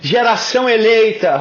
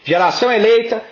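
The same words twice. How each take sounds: First: It is said in an exaggerated worship-leader style. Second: It is said in a plain, normal voice.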